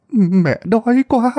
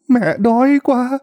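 First: Put-on high, slow old woman's plea with quá drawn out; beg, leaning on quá; slow, higher pleading on "quá"; whimpering plea. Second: Put-on high, slow old woman's plea with đói stressed; beg, leaning on đói; slow, higher pleading on "đói"; whimpering plea. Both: A narrator's reading. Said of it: "bà cũng mếu máo mà nói".

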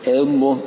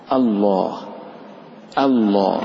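First: الله starting on "eh" instead of a; over-precise tilt. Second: الله with pure opening a, heavy laam; correct light hamza. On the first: Retold or imitated. Teacher mimics the pedantic reciter, الله starting with eh. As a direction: bend the opening of الله to e. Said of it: "ليس كما قال المتنطع". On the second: Shown as a demonstration. Teacher gives the required form, الله with pure hamza. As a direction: slowly say الله, clean a, dark held laam. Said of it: "إنما المطلوب آ".

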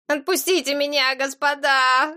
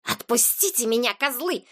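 First: Put-on whimpering boy. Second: Hissed like an enraged cat; furious hiss. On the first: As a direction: whine and beg like a small boy. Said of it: "захныкал мальчишка". (жалобное высокое хныканье) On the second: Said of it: "прошипел, как разъярённая кошка". (злобное шипение разъярённой кошки) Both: A narrator's reading.

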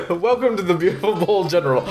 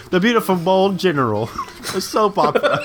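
First: Hammed-up TV announcer. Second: Laughing through the words; giggling as you repeat it. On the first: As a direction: introduce the show like an announcer. Mock announcer intro, laughing. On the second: Real, not acted.

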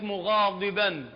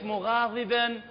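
First: مغاضبا with a full, emphatic ض; thickened ض in مغاضبا; heavy Dad. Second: مغاضبا with a thin, lightened ض; light Dad. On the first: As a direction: press heavily on the ض in مغاضبا. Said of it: "لو بالتفخيم". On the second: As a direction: go easy on the ض in مغاضبا. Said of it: "بالتخفيف". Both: Shown as a demonstration.

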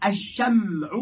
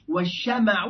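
First: "الشمع" as ash-sham'u, mim held vowelless; sukun on the mim. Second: "والشمع" as wash-shama'u, open mim; fatha on the mim. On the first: Teacher reading the first of two forms, "الشمع" with sukun on mim. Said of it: "والشمع لغتان فصيحتان". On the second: Teacher reading the second of two forms, "والشمع" with fatha on mim. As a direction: say "والشمع" with a short a after the mim. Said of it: "لغتان فصيحتان". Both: Shown as a demonstration.

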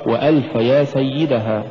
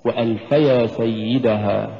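First: وألف and يا pushed apart as two words; wrong split reading. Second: وألفيا said as one word in "وألف يا سيدها"; slow recitation, وألف flowing into يا; joined recitation. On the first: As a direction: separate "وألف" from "يا" by stress. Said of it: "فلا تقرأ". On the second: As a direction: link وألف يا without a separate push. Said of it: "قد تقرأ مفصولة". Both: Shown as a demonstration.

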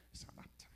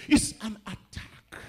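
First: Hushed, voiceless whisper; whispered repeat. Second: Loud, drawn-out warning; emphatic declaration. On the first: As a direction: drop right down to a whisper for effect. Same phrase repeated in a whisper. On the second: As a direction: proclaim it slowly at full voice. Same phrase shouted, then whispered. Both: Real, not acted.

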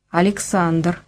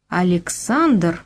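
First: Said in the usual way. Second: Slow, halting "Александр?" as if the name is hard to say; with difficulty. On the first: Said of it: "сказал я". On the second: A narrator's reading. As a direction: drag out "Александр?" with effort. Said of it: "с трудом повторила она".

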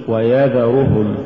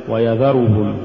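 First: Slow ويذرهم, each short vowel complete; full vowels. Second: ويذرهم with short vowels cut; snatched vowels. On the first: Teacher models correct recitation, ويذرهم evenly voweled. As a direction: give each syllable of ويذرهم equal room. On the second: Teacher shows crooked reading, ويذرهم hurried. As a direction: hurry the syllables of ويذرهم. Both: Shown as a demonstration. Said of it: "ولا تقل".

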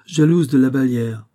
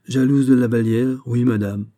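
First: "jalouse" flung out loud and high with scorn; haughty. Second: "Jalouse" repeated loud and steady, not backing down; bold repetition. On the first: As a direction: scorn the very idea, royally. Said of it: "avec hauteur". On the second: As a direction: confirm it bravely to her face. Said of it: "répéta-t-il bravement". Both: A narrator's reading.

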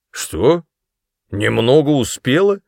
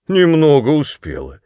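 First: Louder, higher question rising on «успела»; «Немного успела?» asked with a sharp rise on «успела»; incredulous. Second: «Немного успела» with scornful stress on «немного», louder and higher; mocking repeat. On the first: Father repeats in disbelief. (недоверчиво переспрашивая, с подъёмом на «успела») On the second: Father mockingly repeats her words. (насмешливо, с ударением на «немного») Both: A narrator's reading.

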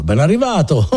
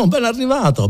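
First: Said in the usual way. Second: Laughing greeting. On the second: Acted.

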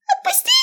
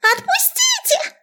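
First: Tiny rat voice, very high and shrieking; squeaky rat shriek. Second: Tiny rat voice, very high and drawn out; squeaky rat shriek. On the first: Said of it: "визжала одна". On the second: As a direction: squeal slowly like a cartoon rat. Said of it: "принялась снова визжать". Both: A narrator's reading.

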